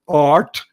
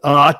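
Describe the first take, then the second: First: It is said in a general American accent. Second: It is said in a Boston accent.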